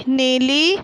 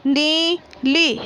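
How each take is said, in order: First: Said in the usual way. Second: नीली drawn out very slowly, syllable by syllable. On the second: Shown as a demonstration. Teacher reading aloud to pupils, नीली stretched very slowly. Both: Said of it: "बोलकर पढ़िए".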